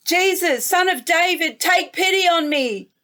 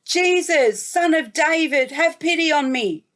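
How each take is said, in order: First: A mild yell, pitch raised higher, pleading harder; calling out more. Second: A mild yell, pitch lifted, pleading; calling out. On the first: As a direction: call out again, more insistently. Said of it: "made him want to yell out even more". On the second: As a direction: call out to Jesus from the roadside, begging. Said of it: "he yelled out and said". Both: A narrator's reading.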